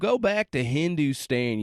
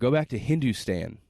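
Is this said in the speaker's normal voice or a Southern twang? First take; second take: Southern twang; normal voice. First: It is said with a Southern American twang. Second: It is said in the speaker's normal accent. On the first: The speaker calls it wrong. "There's that southern twang again" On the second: The speaker calls it right. "I'll do me"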